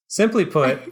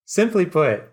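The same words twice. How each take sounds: First: High, loud, laughing villain line; hammed-up villain. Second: High steady smooth boss voice; composed villain. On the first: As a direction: overplay the boss with a laugh. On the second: Acted. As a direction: retake it straight as the boss. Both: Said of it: "trying to get him, like, hey, so hard".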